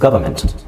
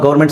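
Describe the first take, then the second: First: The first syllable sounds like 'guv', then 'ermment'. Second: The first syllable sounds like 'gau', shortened. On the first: It is the proper English pronunciation. "English ಅಂತ ಬಂದಾಗ ಅದನ್ನ ಗವರ್ಮೆಂಟ್ ಅಂತಾನೆ ಹೇಳಬೇಕು" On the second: It is used in casual Kannada speech. "ಕನ್ನಡದಲ್ಲಿ ಮಾತಾಡಬೇಕಾದ್ರೆ ... ಹಿಂಗೆ ಹೇಳಿ ಪರವಾಗಿಲ್ಲ"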